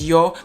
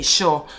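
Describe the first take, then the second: First: It begins with a y sound, standard Spanish. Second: It begins with a sh sound, Argentinian.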